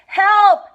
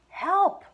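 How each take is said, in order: First: It is said loudly. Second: It is said quietly.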